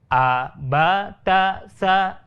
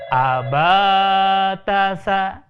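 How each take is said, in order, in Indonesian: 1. Semua vokal pendek, baca pelan-pelan. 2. Vokal suku kata kedua dibaca panjang. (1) "jangan dibaca cepat" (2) "huruf yang keduanya dibaca panjang"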